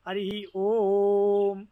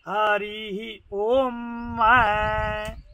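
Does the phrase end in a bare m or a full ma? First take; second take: bare m; full ma. First: The final m is a bare closing consonant. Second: The final m is released as a full ma. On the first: This is the usual everyday way of saying it. "है तो ओ और आधा में" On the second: This follows the rule for ending a recitation. "Yajurveda में नियम ऐसा ऐसा है कि वो वहां पर समापन हो रहा है, इसलिए वो मैं आधा बोल करके पूरे में समापन होता है"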